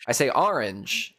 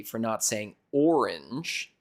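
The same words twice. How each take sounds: First: "orange" with an open AH first vowel; "orange" starting like "are"; AR-inge pronunciation. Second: "orange" with a round OR first vowel; "orange" starting like "or"; OR-inge pronunciation. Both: Shown as a demonstration. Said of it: "the O to A".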